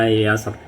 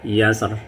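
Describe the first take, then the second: No difference in how they are said.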